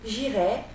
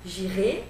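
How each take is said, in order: First: The final vowel is an open e sound. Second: The final vowel is a closed e sound. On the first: It is the conditional mood. "le conditionnel, j'irai, avec un et ouvert" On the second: It is the future tense. "le futur, j'irai, avec un et fermé"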